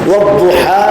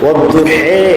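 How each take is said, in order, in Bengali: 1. শব্দটি 'a' স্বরবর্ণে শেষ হয়। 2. শব্দটি 'e' স্বরবর্ণে শেষ হয়।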